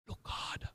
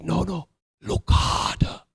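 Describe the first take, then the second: First: Very soft whisper; whispered echo in a monkey character's accent; Rafiki's accent. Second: Slow, insistent monkey character; drawn-out cartoon-monkey voice; Rafiki's accent. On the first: Acted. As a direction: breathe it out as a secret, in character. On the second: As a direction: press the point in a put-on accent. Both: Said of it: "in his wonderful accent".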